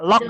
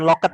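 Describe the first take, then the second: First: The word ends with a released 'd' sound. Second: The word ends with an 'et' sound. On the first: The speaker calls it right. "Cara membacanya locked ya" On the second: The speaker calls it wrong. "bukan locket ya"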